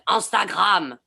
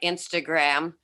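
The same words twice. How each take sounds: First: It is said in a put-on French accent. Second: It is said in a plain American accent.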